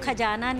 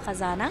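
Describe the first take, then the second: First: It has plain kh and j sounds. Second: It has throaty kh and z sounds. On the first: The speaker calls it wrong. "तो खजाना नहीं है" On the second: The speaker calls it right. "ख में भी नुक्ता है और ज में भी नुक्ता है"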